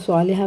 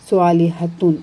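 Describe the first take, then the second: First: The word ends on a plain final vowel. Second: The word ends with the full '-tun' ending. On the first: The reader stops on the word. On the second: The word is read in running speech.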